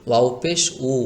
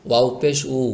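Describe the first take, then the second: Both takes have the same delivery.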